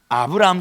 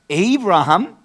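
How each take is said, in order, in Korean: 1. 이름은 'ah' 소리로 시작해요. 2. 이름은 'ay' 소리로 시작해요.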